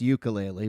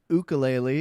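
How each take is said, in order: First: It is said the English way. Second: It is said the Hawaiian way. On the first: "in English it's ukulele" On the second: "so Hawaiian it's ukulele"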